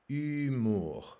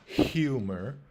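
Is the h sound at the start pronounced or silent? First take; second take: silent; pronounced. First: The initial h sound is silent. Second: The initial h sound is pronounced. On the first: "but here we're just going to say humour" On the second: "we pronounce the H sound. We say humor"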